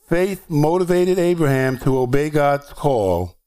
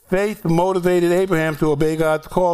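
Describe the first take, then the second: First: The words are read at a slower pace. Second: The words are read at a fast pace. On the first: "I'll read it again slower" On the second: "I know I read it quickly"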